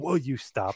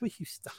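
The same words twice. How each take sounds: First: It is said in a stern, serious way. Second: It is said while laughing.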